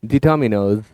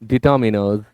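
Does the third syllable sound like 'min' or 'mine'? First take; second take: min; min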